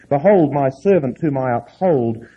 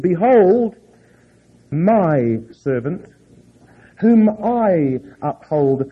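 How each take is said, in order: First: The words my and I are not stressed. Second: The words my and I are stressed.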